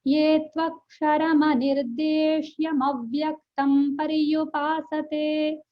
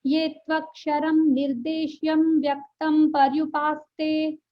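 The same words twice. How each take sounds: First: ये त्वक्षरमनिर्देश्यमव्यक्तं पर्युपासते recited slowly, joined as one flowing word; correct recitation. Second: ये त्वक्षरम निर्देश्यम व्यक्तं broken into separate words, dropping the अ of अव्यक्तं; imitating a wrong reading. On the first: Shown as a demonstration. Teacher reciting the Gita verse slowly in the correct way. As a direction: chant the verse slowly with अव्यक्तं kept whole. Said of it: "ऐसे ही पढ़, पढ़ते हैं". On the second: Teacher mimicking a North Indian's broken verse reading. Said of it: "ये मैंने सुना है एक उत्तर भारतीय से".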